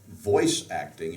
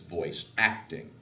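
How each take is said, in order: First: The stress is on the word voice. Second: The stress is on the word acting.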